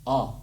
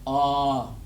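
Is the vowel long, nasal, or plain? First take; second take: plain; long. First: The vowel is short and oral. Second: The vowel is drawn out longer. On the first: "The way the letter A is pronounced in Apache language" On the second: "when there's two of them, you draw out the sound longer"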